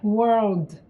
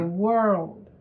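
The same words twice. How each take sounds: First: The final D is released strongly. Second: The final D is only a light tap. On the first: The speaker calls it wrong. "Não é world" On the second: The speaker calls it right. "E o D é bem leve"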